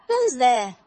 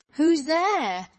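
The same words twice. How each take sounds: First: Loud, higher call to the door. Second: Big, loud wolf call, pitched up. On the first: Grandmother answers knock at her door, loud call. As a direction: project it as a sharp question. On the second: Wolf in grandmother's bed answers knock, big loud voice. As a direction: boom the question out high and loud. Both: A narrator's reading. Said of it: "hearing the big voice of the wolf".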